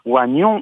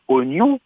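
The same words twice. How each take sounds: First: The first vowel sounds like 'wa'. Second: The first vowel sounds like a plain 'o'. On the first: The speaker calls it wrong. "on dit pas oignon" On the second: The speaker calls it right. "on dit bien oignon. Il ne se prononce pas"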